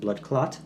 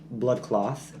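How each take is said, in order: First: The second word ends with a 't' sound. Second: The second word ends with a 'th' sound. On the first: This is how Jamaicans say it. "Jamaicans pronounce it blood clot" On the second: This is the original phrase. "it stems from blood cloth"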